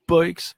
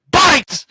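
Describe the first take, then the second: First: Higher, small mock kid answer; kid's meek answer. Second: "Bikes?" yelled very high and loud in mock disbelief; disbelieving yell. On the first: Kid answering the inmate, small and meek. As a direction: say it like a timid kid. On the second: Inmate hearing the kid's crime, loud high mock disbelief. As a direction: shriek "Bikes?" as if it's absurd. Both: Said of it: "He's like".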